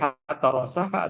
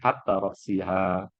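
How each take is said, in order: First: The vowel after the s is a. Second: The vowel after the s is i. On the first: The fish head is eaten too. "berarti pala ikan juga dimakan" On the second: The fish head is left uneaten. "kalau Anda makan ikan tapi pala ikannya ditinggali"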